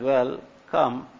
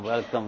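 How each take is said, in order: First: It is said reluctantly, split into two words. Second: It is said eagerly as one smooth word. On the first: The visitor is only grudgingly allowed. "That I'm not too happy about your coming" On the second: The visitor is warmly wanted. "we're very excited about your coming"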